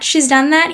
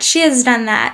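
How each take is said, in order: First: 'Has' is contracted onto 'she' as 's'. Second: 'Has' is said in full as a separate word.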